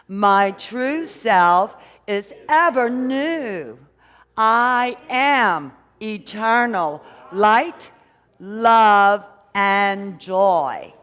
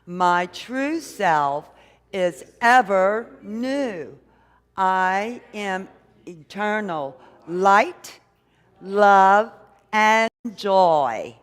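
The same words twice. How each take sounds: First: Slow, loud, drawn-out declaration; affirmation said like we mean it. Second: Affirmation. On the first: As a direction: proclaim every word with full conviction. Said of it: "say it like we mean it". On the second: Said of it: "let's really align with it and say it like we mean it". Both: Shown as a demonstration.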